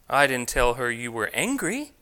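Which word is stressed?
angry. The stress falls on the word angry. A different feeling was described. "I told her you were feeling something else"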